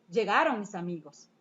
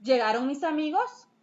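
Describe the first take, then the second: First: "llegaron mis amigos" stated lower, llegaron prominent, falling to the end; statement: "llegaron mis amigos" with a falling close; falling statement tune. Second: "llegaron mis amigos" asked with amigos rising at the end; question: "llegaron mis amigos" ending on a rise; rising question tune. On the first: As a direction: state it flatly, letting it fall. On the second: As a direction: ask it, lifting amigos at the close. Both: Shown as a demonstration.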